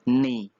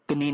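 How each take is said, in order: First: The word begins directly with an n sound. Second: The word begins with a k sound. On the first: The speaker calls it right. "के silent है" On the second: The speaker calls it wrong. "कनी नहीं होगा"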